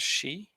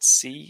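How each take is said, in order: First: The word begins with an sh sound. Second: The word begins with a plain s sound. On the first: The speaker calls it right. "an S H sound" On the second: The speaker calls it wrong. "you said it with an S sound instead of an S H sound"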